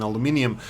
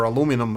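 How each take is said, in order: First: "aluminum" said with an extra i, al-oo-MIN-ee-um; "aluminum" ending in -ee-um; British-style pronunciation. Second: "aluminum" said without the extra i, a-LOO-mi-num; "aluminum" ending in plain -num; American-style pronunciation. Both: Real, not acted. Offers two variant pronunciations.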